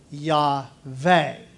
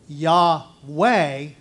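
First: The second syllable starts with a V sound. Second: The second syllable starts with a W sound. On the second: This is the English way of saying it. "we pronounce it as Yahweh"

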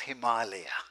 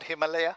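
First: The middle A vowel is long. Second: The middle A vowel is short. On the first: It means house of snow. The speaker calls it right. "it is Himalaya" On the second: The meaning of the word changes. The speaker calls it wrong. "it is not Himalaya"

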